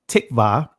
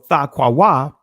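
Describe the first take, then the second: First: It uses the modern pronunciation of the word. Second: It uses the ancient pronunciation of the word. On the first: "the Israeli language" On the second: "is the ancient pronunciation of it"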